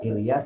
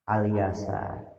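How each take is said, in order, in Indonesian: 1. Nama ini dimulai dengan vokal 'i'. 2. Nama ini dimulai dengan vokal 'a'. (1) "bihamzati qot'in, dengan menggunakan hamzah kotok maksuratin yang dikasroh" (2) "ada yang ngatukeun dipat fitha"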